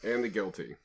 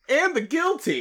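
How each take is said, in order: First: It is said flatly, without passion. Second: It is said with more passion.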